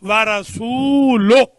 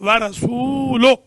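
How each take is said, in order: Both takes have the same delivery.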